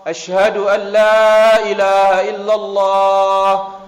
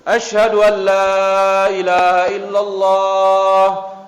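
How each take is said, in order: Both takes have the same delivery.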